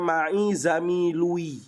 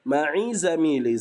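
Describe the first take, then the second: First: The last word ends with a 'u' vowel. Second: The last word ends with an 'i' vowel. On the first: The speaker calls it wrong. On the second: The speaker calls it right.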